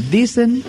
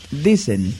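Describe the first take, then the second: First: Dicen lifted high and pushed out; stress on dicen. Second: Said in the usual way. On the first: Shown as a demonstration. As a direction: hit the word dicen hard to doubt it. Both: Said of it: "recalco la palabra dicen".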